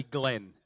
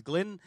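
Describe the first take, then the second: First: Glenn said as Glen, with an open e; mispronounced name Glen. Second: Glenn said as Glyn, with a short i; own name Glyn. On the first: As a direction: say Glenn with the vowel of "pen". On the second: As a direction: say Glenn with the vowel of "pin". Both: Shown as a demonstration. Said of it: "not call me Glenn".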